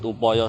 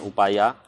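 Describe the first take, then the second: First: The word is said with o vowels. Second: The word is said with a vowels. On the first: The speaker calls it right. "Ini disebut upoyo saja" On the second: The speaker calls it wrong. "jangan upaya"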